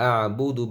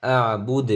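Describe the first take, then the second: First: "আ বু দু" with the final u sounded; joined-reading ending. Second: "আ বুদ" cut on a final d, no u; waqf stop. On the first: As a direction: end "আ বু দু" on an open u vowel. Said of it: "ওই সময় উচ্চারণ হবে". ("আ বু দু" শেষে পেশ উচ্চারণ করে) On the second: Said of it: "ওকফ করলে". ("আ বুদ" শেষে পেশ ছাড়া ওকফ) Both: Shown as a demonstration.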